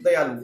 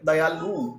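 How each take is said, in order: First: The final vowel u is short. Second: The final vowel u is lengthened. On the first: The speaker calls it right. "हम बोलेंगे" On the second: The speaker calls it wrong. "उ को लघु को दीर्घ बनाकर बोलेंगे"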